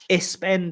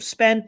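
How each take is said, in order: First: An extra vowel sound comes before the s. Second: The word starts directly with the s sound. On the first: The speaker calls it wrong. "you said like ispend" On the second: The speaker calls it right. "instead of spend"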